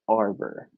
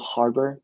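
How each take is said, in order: First: The word begins with a vowel, no H sound. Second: The word begins with an audible H sound. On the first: "act like there's no H" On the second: "Do you pronounce the H?"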